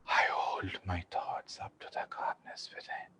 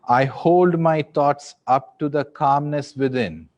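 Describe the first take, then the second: First: It is spoken in a whisper. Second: It is spoken in a loud voice. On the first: "in a whisper" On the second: "in a loud voice"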